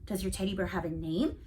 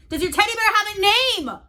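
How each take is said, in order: First: Said in the usual way. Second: Raised, higher call across the room; louder. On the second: Acted. Boy repeating his question louder to a sleepy friend. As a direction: say it louder so he hears. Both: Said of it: "I said louder".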